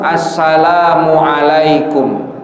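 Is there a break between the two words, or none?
none. The two words run together without a break. The speaker calls it right. "harus nyambung"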